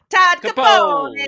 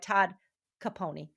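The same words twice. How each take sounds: First: The name is said with an Italian accent. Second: The name is said with a plain American accent. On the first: The speaker calls it right. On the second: The speaker calls it wrong.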